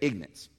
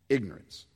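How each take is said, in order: First: It is said quickly in a Southern accent. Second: It is said slowly in a standard accent.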